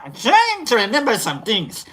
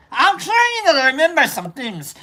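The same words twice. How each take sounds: First: Second attempt at the wandering accent; retry the accent, reining in the Idi Amin slip; retried accent. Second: Higher, accent slipping toward Idi Amin. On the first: Shown as a demonstration. Streamer showing the accent slip, in a retried accent. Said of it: "I don't mean it to be like that". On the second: Real, not acted. Streamer attempting an accent, accidentally sounding like Idi Amin. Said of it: "like Idi Amin right there".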